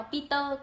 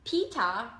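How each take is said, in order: First: "Peter" said with a Vietnamese accent; Vietnamese-accented "Peter", unaspirated P; Vietnamese pronunciation. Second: "Peter" as "Pee-tah" in a British accent; British pronunciation. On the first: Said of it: "tiếng Việt thì sẽ đọc là". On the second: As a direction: say "Peter" the British way, crisp T, no final R. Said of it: "bọn Anh Anh thì nó sẽ đọc là". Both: Shown as a demonstration.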